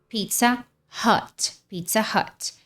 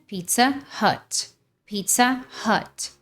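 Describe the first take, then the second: The two takes are said the same way.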